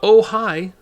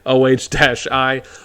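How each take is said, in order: First: It is read aloud as two ordinary words. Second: It is spelled out as separate letters. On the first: The speaker calls it wrong. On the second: The speaker calls it right.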